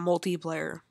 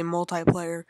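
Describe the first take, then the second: First: "multiplayer" with TI said like "tee"; multi-tee pronunciation. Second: "multiplayer" with TI said like "tie"; multi-tie pronunciation. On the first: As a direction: say "multiplayer" as mul-tee-player. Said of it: "and not multiplayer". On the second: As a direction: say "multiplayer" as mul-tie-player. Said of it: "gonna correct how I say multiplayer". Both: Shown as a demonstration.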